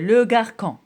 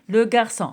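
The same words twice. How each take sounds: First: The c is pronounced with a k sound. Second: The ç is pronounced with an s sound. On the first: The speaker calls it wrong. "Si je mets pas de de, de cédille, alors euh, on va lire euh" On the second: The speaker calls it right. "il faut mettre la cédille"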